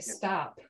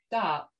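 First: The final p is fully and audibly released. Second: The final p is held back and not released. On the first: The speaker is upset about something. "you're like, oh, what's going on?" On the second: The speaker just means cut it out. "then I just mean cut it out"

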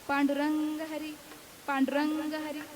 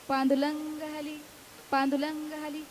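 First: The r sounds are pronounced clearly. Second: The r sounds are replaced by l sounds. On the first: An adult says the name properly. "म्हणायचे" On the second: A small child says it in baby talk. "बोबड्या शब्दाने बोलायचे"

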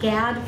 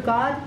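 First: The name is said with an English-style pronunciation. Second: The name is said with its Hebrew pronunciation. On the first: "I'll go with Gad for you all who usually pronounce it that way" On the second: "it's pronounced in Hebrew God"

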